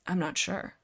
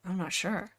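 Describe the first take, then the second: No difference in how they are said.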